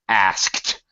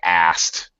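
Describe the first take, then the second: First: The S, K and T are all pronounced. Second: The K is dropped, leaving S and T. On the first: This is the strict dictionary form. "You pronounce the S and then the K and then the T" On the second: This is how people say it in normal conversation. "We're going to drop the K"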